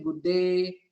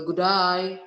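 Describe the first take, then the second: First: "good day" in a light British or American accent, with "day" said as "de". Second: "good day" in an Australian accent, run together like "g'day", louder. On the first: Teacher contrasting British and American usage with Australian, in a mild British or American accent. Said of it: "British sama Amerika mungkin good day". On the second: Teacher showing students the Australian greeting in an Australian accent. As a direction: say "good day" the Australian way, as one quick "g'dai". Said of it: "di Australia misalnya bilang kan". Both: Shown as a demonstration.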